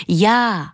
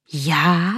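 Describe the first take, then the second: First: JÁ as a firm, drawn-out answer. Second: Drawn-out JÁ as a puzzled question; wondering. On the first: Vitka answers the mirror, asserting herself. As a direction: state JÁ plainly as a reply, no question. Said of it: "odpověděla Vitka". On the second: Mirror asks the girl back, wondering. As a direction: say JÁ in surprise, asking back. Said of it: "divilo se zrcadlo". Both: A narrator's reading.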